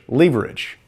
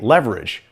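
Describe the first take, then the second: First: It is said in a British accent. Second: It is said in a non-British accent.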